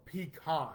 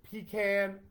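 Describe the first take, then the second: First: Pecan as pee-KAHN, open 'ah'; pee-KAHN pronunciation. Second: Pecan as pee-CAN, higher and punchy; pee-CAN pronunciation. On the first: Host puts the alternative to viewers, pee-KAHN pronunciation. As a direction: say pecan ending like 'con'. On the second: Host puts it to viewers, pee-CAN pronunciation. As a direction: say Pecan with the vowel of 'cat' at the end. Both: Shown as a demonstration. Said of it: "I'm putting it out there".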